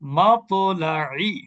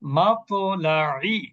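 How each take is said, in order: First: The stopped consonant ends with a short echoing bounce. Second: The same.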